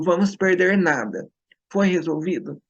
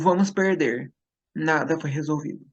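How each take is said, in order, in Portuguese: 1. Há uma pausa depois de "nada". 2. Há uma pausa depois de "perder". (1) "Se eu mudar a posição da vírgula" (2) "Se eu mudar a posição da vírgula"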